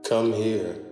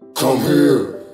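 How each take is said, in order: First: It is said softly and gently. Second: It is said angrily and menacingly.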